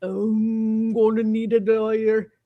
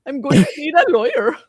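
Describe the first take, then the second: First: Put-on slow, lightly Indian-accented voice; a light imitation of Deepak Chopra; slow mock Indian accent; Deepak Chopra impression. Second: Put-on louder, higher Indian-accented take; loud mock Indian accent; Deepak Chopra impression. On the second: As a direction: ham up the Chopra voice. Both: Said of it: "I can't do Deepak".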